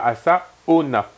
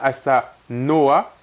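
First: The name ends with the sounds 'ona'. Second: The name ends with the sounds 'noa'. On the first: The speaker calls it wrong. "et pas Asaona" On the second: The speaker calls it right. "c'est bien Asanoa"

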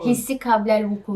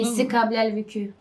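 First: The last word has back vowels, like vuku. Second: The last word has front vowels, like vükü. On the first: The speaker calls it right. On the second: The speaker calls it wrong.

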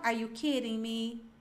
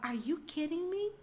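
First: It is said flatly, with little expression. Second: It is said in a lively, expressive way. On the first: The speaker calls it wrong. "Eu não falava" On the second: The speaker calls it right. "eu falava"

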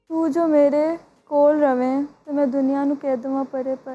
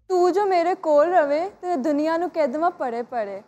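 First: It is said in a sad tone. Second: It is said in an angry tone.

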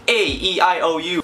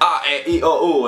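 First: The five vowels are said with English sounds. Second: The five vowels are said with Spanish sounds. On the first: "in English, it's like" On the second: "In Spanish, it's more like"

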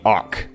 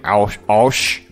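First: The name ends with a hard k sound. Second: The name ends with a soft sh sound. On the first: "Like a hard CH" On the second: "You say Osh"

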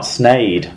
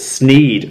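First: The vowel sounds like 'ay'. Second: The vowel sounds like 'ee'. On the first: The speaker calls it wrong. "not Snade" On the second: The speaker calls it right. "it's Sneed"

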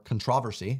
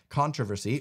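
First: It is said in the local pronunciation. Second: It is said in the speaker's usual pronunciation.

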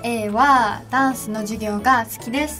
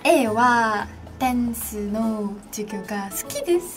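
First: Dance is said 'dansu' in plain Japanese intonation. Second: Dance is said 'densu' with cute, Korean-leaning intonation. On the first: "レノンがこうやって言うんだよって言って" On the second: "本当に可愛いイントネーションで言うんですよ"

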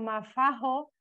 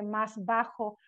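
First: The s and b merge into an f-like sound. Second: The s and b are kept separate as s, b. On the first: "se altera la S implosiva" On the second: "no se dice más bajo"

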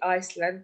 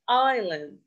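First: An S sound is heard before the L. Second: No S sound is heard before the L. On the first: The speaker calls it wrong. "it's wrong" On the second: The speaker calls it right. "Here we have silent S"

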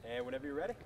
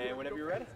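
No difference in how they are said.

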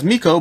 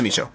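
First: The middle consonant is a k sound. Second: The middle consonant is a ch sound. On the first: The speaker calls it wrong. "which to me says Miko, but you know, it's not the Miko" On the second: The speaker calls it right. "I believe it's the Micho"

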